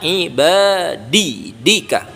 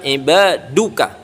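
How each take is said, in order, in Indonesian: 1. Vokal sebelum -ka akhir adalah 'i'. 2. Vokal sebelum -ka akhir adalah 'u'. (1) "dibaca kasrah atau jar atau khafat" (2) "dibaca dhammah atau dalam istilah ilmu nahwunya dibaca rofa"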